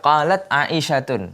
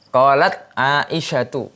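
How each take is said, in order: First: The name ends in u followed by n. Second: The name ends in a plain u vowel. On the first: The speaker calls it wrong. "bukan qalat Aisyatun. Nah, itu salah" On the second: The speaker calls it right. "Yang benar qalat Aisyatu"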